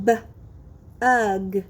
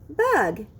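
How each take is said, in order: First: Short B, long pause, then "ug"; segmented sounds. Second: Said in the usual way. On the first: Shown as a demonstration. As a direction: split "B-ug" for blending. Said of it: "I will say the sounds in a word". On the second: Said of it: "you will blend the sounds".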